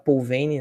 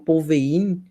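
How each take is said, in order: First: The name is said with a Portuguese pronunciation. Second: The name is said with a French pronunciation. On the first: "a nossa portuguesamos para Paul Veyne, então fica Paul Veyne" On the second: "eu já ouvi falar de algumas pessoas falando Paul Veyne"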